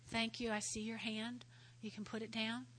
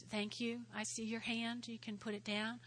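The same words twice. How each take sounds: The two takes are said the same way.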